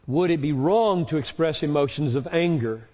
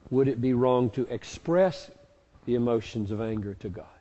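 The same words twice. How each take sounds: First: "wrong" leaned on, rest even; the word "wrong" carries the question; stress on wrong. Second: Rereading the question to stress "express". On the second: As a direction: point at the word "express". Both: Shown as a demonstration. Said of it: "The word express there is tricky".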